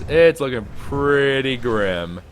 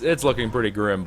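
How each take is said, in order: First: Each word stretched out slow; a slow, weighty it's looking pretty grim; slow, drawn-out grim verdict. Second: Said in the usual way. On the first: Shown as a demonstration. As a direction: drag out pretty grim, slowly.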